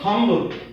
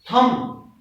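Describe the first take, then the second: First: The word ends with an audible b sound. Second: The word ends in m with no b sound. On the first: The speaker calls it wrong. "not thumb" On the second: The speaker calls it right. "your letter B will be silent and the pronunciation will be thumb"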